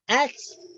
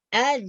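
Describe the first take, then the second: First: It ends with a ts sound. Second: It ends with a buzzing z sound. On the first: "itu salah juga" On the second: "itu salah"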